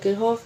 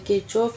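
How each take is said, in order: First: The middle consonant is an 'h' sound. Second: The middle consonant is a 'ch' sound. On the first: "ज़्यादातर जो pronounce हम लोग किरहोफ से करते हैं" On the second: "आप लोगों ने इसको किरचॉफ पढ़ा होगा"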